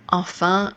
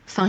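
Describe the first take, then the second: First: The word is said in full, two syllables. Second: The first syllable is dropped, leaving one syllable. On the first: "I didn't say enfin" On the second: "I said fin"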